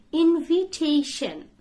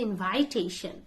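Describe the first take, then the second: First: "Invitation" as in-vee-TAY-shun, higher and louder; correct pronunciation. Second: "invitation" as in-VIE-tay-shun; long I in second beat of "invitation"; mispronunciation. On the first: Teacher corrects learners, "Invitation" said firmly with VEE. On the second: Teacher shows what not to say, "invitation" with VIE. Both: Shown as a demonstration. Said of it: "Don't say invitation".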